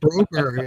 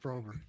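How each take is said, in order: First: The name ends with a 'berry' sound. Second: The name ends with a 'berg' sound. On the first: The speaker calls it wrong. "my thing came up with Blackberry or Blueberry or something" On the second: The speaker calls it right. "it spelled Broberg perfectly"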